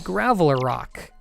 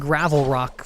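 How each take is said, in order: First: It is said with four syllables, graveler rock. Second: It is said with three syllables, gravel rock. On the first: The speaker calls it right. "It's actually Graveler Rock" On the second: The speaker calls it wrong. "I've been pronouncing Gravel Rock wrong this entire time"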